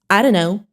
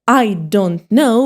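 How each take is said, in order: First: The words are run together and reduced. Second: Each word is said fully and separately.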